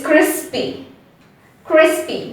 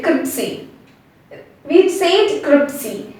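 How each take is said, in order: First: "crispy" as "KRIS-pee", S before P; correct pronunciation. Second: "cripsy" as "KRIP-see", P before S; confused mispronunciation. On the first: Teacher gives the correct way, S before P. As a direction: say "crispy" with the S clearly ahead of P. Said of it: "the correct way to say it". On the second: Teacher shows the common confusion, swapped consonants. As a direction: swap the sounds into "cripsy". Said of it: "we get confused and we say". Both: Shown as a demonstration.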